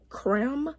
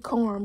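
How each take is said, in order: First: The name is said like 'creme', French-like. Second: The name is said like 'carm', as in caramel. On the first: The speaker calls it wrong. "I was saying it wrong like the whole time. I was saying creme" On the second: The speaker calls it right. "It's supposed to be carm, because you know, caramel"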